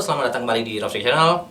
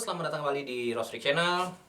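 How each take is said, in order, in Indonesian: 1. Suaranya terdengar dekat dan lebih keras. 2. Suaranya terdengar jauh dan lebih pelan. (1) "Kita compare ya" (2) "zoom mic-nya sudah mati"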